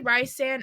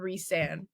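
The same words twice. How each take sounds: First: The first syllable sounds like 'rice'. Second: The first syllable sounds like 'reese'.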